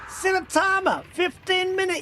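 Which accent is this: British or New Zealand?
British. It is said in a put-on British accent. The speaker calls it right. "that's my impersonation of a bad British accent"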